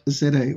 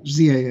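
First: The letter Z is said as zed. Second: The letter Z is said as zee, American style.

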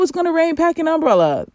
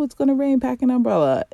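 First: It is said in a tense, exasperated tone. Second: It is said in a calm, gentle tone. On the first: "That's more how I sound" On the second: "It doesn't really come out like that usually"

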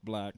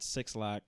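First: The name is said as one syllable, 'black'. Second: The name is said as two words, 'six lack'. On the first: The speaker calls it right. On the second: The speaker calls it wrong. "not Six Lack or some weird ass way to pronounce it"

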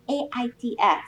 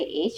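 First: The acronym is spelled out letter by letter. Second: The acronym is said as a single word. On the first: "She goes A-I-D-S" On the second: "She won't say AIDS"

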